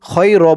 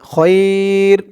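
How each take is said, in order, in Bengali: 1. 'ay' ধ্বনিটি ছোট ও কাটা কাটা। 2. 'ay' ধ্বনিটি আরও লম্বা করে টানা হয়। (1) "খয় র বলা যাবে না" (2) "খয়ের মধ্যে লিন একালিফ টান হবে"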